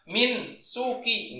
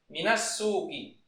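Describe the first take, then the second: First: Min ends on a bare n before suki. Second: A vowel links min straight into suki. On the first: The speaker calls it wrong. "bukan min suki" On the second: The speaker calls it right. "Makanya dibacanya minas"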